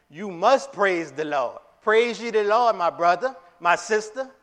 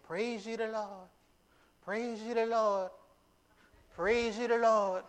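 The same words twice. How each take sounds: First: Loud, high commanding call. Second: High, slow, lifted call of praise; excited praise. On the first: David commanding the people of Israel, loud. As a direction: order the people to praise. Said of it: "with a, a command". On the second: Preacher showing David praising with excitement. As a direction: sing out the praise, rising with joy. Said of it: "he is saying it with excitement". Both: Retold or imitated.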